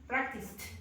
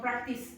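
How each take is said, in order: First: The word ends with a clear final t sound. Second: The word ends without a final t sound. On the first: The speaker calls it right. "It's t" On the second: The speaker calls it wrong. "No, practice. No. It's t"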